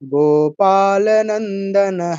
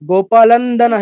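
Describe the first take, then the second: First: The 'na' syllable after 'gopala' is pronounced. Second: The 'na' syllable after 'gopala' is dropped. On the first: The speaker calls it right. "ল এবং নয় দর মাঝখানে আরেকটা ন আছে কিন্তু।" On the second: The speaker calls it wrong. "এরকম হয়েছে। লন্দন নয়।"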